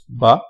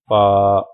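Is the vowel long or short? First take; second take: short; long. First: The vowel is short, not stretched. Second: The vowel is long and stretched. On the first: "without the Madda letter" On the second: "with the Madda letter"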